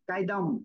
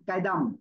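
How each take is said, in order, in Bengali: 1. শব্দ থেকে 'hu' অক্ষরটি বাদ পড়ে যায়। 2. শব্দ থেকে 'hu' অক্ষরটি বাদ পড়ে যায়।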